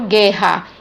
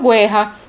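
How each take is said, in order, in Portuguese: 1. Não se ouve som de u depois do g. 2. Ouve-se um som de u depois do g. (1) "veja que eu não pronuncio o U" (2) "eu não falo guerra"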